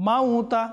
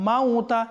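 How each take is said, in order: The two takes are said the same way.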